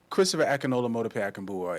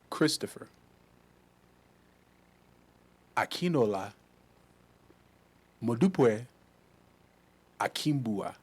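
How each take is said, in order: First: The name is said with American pronunciation. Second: The name is said with Nigerian pronunciation. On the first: The speaker calls it wrong. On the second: The speaker calls it right.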